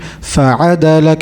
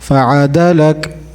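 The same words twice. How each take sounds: First: The pitch rises on the second syllable. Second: The pitch rises on the third syllable. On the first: The speaker calls it right. "So we are going up on on ain and not dal" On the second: The speaker calls it wrong. "instead of"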